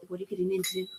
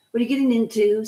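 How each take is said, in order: First: "What are you getting into?" said much softer, almost under the breath; quiet mock question. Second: Said in the usual way. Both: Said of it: "I always laugh when people".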